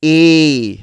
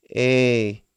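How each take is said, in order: First: A rung out loud and higher; very clear sound. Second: A said lazily, without any push; an unenergetic, careless A; lazy letter sound. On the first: Teacher showing how to say it, very clear A. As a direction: hit a crisp, strong A. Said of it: "say the word in a very, very clear sound". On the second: Teacher showing what not to do, lazy A. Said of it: "which is very, very lazy". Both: Shown as a demonstration.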